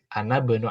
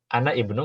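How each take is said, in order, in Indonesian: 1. 'i' dihilangkan dan 'bnu' menyambung ke 'ana'. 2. 'i' di awal 'ibnu' diucapkan. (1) "lebih sempurna" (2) "nggak salah"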